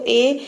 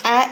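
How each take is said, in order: First: ए said as the letter name "ay"; name the letter ए, rising; ए as in "day". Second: ए sounded as open "æ"; ए as short "a", not "ay"; phonic A sound. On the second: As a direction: sound out ए as in apple. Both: Shown as a demonstration. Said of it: "ए इस तरह से होना चाहिए".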